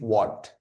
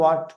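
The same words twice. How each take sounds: First: It is said with a British rounded 'o' vowel. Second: It is said with an American open 'ah' vowel.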